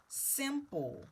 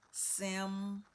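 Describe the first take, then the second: First: Said in the usual way. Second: SIMPLE broken into a held SIMMM, pause, POLE; simple sounded out in two parts; split into syllables. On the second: Shown as a demonstration. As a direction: hold the M of SIMPLE, then sound the ending separately. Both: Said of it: "to divide those syllables".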